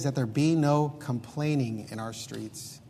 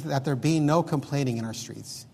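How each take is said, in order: First: Slow, dwelt-on reading of the verse; slow, weighty scripture reading; slow scripture quote. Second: Said in the usual way. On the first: Shown as a demonstration. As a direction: let each word of the verse land slowly. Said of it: "And then he says". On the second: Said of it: "He says".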